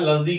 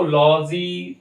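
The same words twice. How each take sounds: First: लजी with a short schwa: "luh-jee"; correct pronunciation. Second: लॉजी with a long, open "aw": "law-jee"; wrong pronunciation. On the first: Teacher showing the correct word ending, लजी as a quick "luh-jee". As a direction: keep the first vowel of लजी short, as "luh". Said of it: "लजी करके pronounce होता है". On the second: Teacher showing what not to say, लॉजी as a long "law-jee". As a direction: draw out the first vowel of लॉजी as "law". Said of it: "लॉजी तो नहीं बोलना है". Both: Shown as a demonstration.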